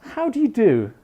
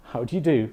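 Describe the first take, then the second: First: HOW DO YOU DO pitched high, falling to the end; greeting question. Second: HOW DO YOU DO lower and softer, as the reply; answering greeting. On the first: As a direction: ask "How do you do" high, with a marked fall on "you do". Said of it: "We ask a question". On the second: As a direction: return "How do you do" low and understated. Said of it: "correct response is another question". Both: Shown as a demonstration.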